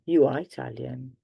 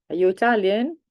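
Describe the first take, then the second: First: Said in the usual way. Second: "Are you Italian?" pitched higher with a rise; teacher demonstrating a questioning rise; rising question. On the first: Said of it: "if it's just the affirmative". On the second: Shown as a demonstration. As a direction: ask it, voice lifting. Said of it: "If you're asking a question".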